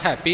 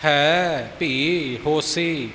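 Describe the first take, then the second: First: ਹੈਪੀ run together like "happy"; mistaken joined reading. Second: Slow, with ਹੈ and ਭੀ each drawn out alone; separated words. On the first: Teacher showing what to avoid, ਹੈਪੀ merged into one word. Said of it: "ਹੈਪੀ ਇਕੱਠਾ ਨਹੀਂ". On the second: Teacher correcting the merged reading, ਹੈ ਭੀ said slowly apart. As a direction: leave space between ਹੈ, ਭੀ and ਹੋਸੀ. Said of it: "ਵੱਖਰੇ ਵੱਖਰੇ ਪਾਠ ਹਨ". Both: Shown as a demonstration.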